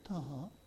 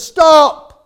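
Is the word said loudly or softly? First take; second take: softly; loudly. First: The word is said softly and weakly. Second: The word is shouted loudly and forcefully. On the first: This is not how a command is given. The speaker calls it wrong. "You don't go to a policeman and he says" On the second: This is a real command. The speaker calls it right. "Shout it out"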